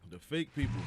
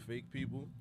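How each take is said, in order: First: It is said more loudly. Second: It is said at normal volume.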